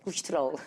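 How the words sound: Vowels are clipped and reduced, said fast. "Falam colesterol"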